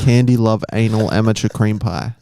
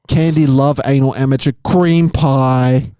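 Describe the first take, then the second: First: It is read flatly, like a robot. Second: It is read expressively, with intended tone.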